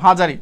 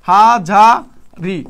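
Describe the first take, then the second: First: Said in the usual way. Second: হাজারি very slowly, as "haa, jaa, ri"; syllable by syllable. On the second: Shown as a demonstration. Teacher writing the word in Banglish, drawing out হাজারি syllable by syllable. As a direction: split হাজারি into three long, separate syllables.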